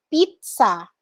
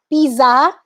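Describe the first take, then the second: First: Pizza as PEET-sa, slow; correct pizza. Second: Pizza with a plain z, rising; wrong pizza. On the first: Teacher correcting pizza to PEET-sa. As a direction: give pizza with ts. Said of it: "it's pizza". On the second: Teacher showing the misread pizza. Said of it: "it's not pizza". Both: Shown as a demonstration.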